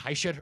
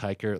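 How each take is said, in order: First: The name is said with a German pronunciation. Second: The name is said with an American pronunciation. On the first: The speaker calls it right. "It should be Heischer or Heicher" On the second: The speaker calls it wrong. "Hiker like it's uh, like it sounds"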